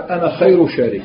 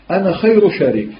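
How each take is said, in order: First: Said in the usual way. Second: Mocking irony. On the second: Shown as a demonstration. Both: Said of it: "ماشي كما الأول في الترهيب".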